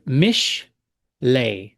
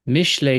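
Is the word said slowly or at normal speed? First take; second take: slowly; normal speed. First: It is said slowly, syllable by syllable. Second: It is said smoothly at normal speed. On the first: "let's go piece by piece" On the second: "once more at regular speed"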